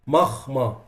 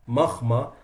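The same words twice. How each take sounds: No difference in how they are said.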